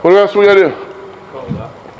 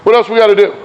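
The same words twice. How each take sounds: First: What else we gotta do? stretched slow and teasing; drawn-out question. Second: Said in the usual way. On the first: Shown as a demonstration. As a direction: drag it out to prompt the answer.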